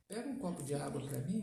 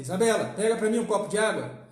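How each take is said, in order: First: Low, soft, easygoing ask; gentle request. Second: Loud, brisk command; harsh order. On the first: Father asking his daughter for water, gentle request. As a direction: ask kindly, low and unhurried in volume. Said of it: "a entonação da voz já diz muita coisa". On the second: Father demanding water from his daughter, harsh loud order. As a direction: order it loudly and sharply. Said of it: "Olha a diferença". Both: Shown as a demonstration.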